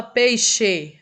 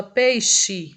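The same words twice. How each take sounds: First: "peixe" with a full final E, as pei-xê; spelling pronunciation. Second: "peixe" ending in an I sound, as pei-xi; everyday pronunciation. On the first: Teacher showing students what people don't say, "peixe" with final ê. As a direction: say "peixe" ending in a clear ê, as written. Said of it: "a gente não fala peixe". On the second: Teacher showing students how we say it, "peixe" with final i. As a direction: slowly say "peixe" with final e turned to i. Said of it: "a gente fala peixe". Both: Shown as a demonstration.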